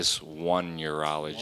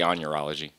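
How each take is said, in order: First: The first syllable sounds like 'one'. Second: The first syllable sounds like 'on'. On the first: This is the technically correct pronunciation. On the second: This is the speaker's own artistic choice. "It's so I say on urology"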